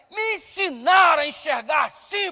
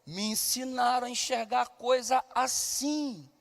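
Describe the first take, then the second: First: Preached punch line. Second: Soft reflective refrain. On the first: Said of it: "Por que que eu acho". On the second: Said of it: "Porque faço e porque enxergo". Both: Real, not acted.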